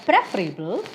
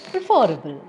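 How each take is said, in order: First: "preferable" stressed at the start, PREF-rable; stress on first syllable. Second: "preferable" stressed on the second syllable, pre-FER-able. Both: Shown as a demonstration. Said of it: "multiple pronunciations".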